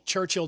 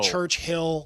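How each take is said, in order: First: It is said as one word, stress first. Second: It is said as two separate, equally stressed words.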